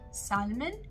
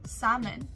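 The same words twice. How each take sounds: First: The L sound is pronounced. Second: The L sound is silent. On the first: The speaker calls it wrong. "instead of saying salmon" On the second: The speaker calls it right. "you will say salmon"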